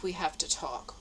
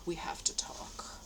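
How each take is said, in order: First: Said in the usual way. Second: Whisper. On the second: Retold or imitated. Rereading his note, ominous.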